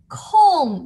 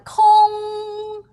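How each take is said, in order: First: The pitch falls sharply. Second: The pitch stays high and level. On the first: It means free time or leisure. "the fourth tone, like a down tone" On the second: It means empty. "the high, like a high pitch, like the opera sing"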